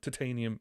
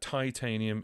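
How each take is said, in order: First: The word has a British pronunciation. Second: The word has an American pronunciation. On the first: "Titanium is English" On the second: "titanium is American"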